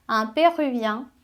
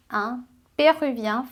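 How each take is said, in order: Both takes have the same delivery.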